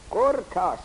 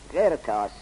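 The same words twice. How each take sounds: First: قرطاس said qurtas, u after the q. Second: قرطاس said qirtas, i after the q. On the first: Teacher to students, قرطاس with u vowel. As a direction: say قرطاس as qurtās, first vowel u. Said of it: "به ضم قاف". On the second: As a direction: say قرطاس as qirtās, first vowel i. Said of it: "به کسر قاف میخواند". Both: Shown as a demonstration.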